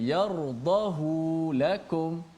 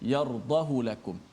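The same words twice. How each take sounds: First: The vowel on 'hu' is drawn out long. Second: The vowel on 'hu' is kept short. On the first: The speaker calls it wrong. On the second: The speaker calls it right.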